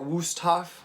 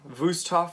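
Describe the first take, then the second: First: The name is pronounced the English way. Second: The name is pronounced the German way.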